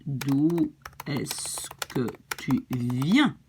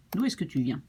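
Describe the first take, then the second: First: Very slow, each word separated; slow teaching model. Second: Said in the usual way. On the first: Shown as a demonstration. Teacher gives learners the other version of the question, very slowly. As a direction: stretch out every word for a beginner.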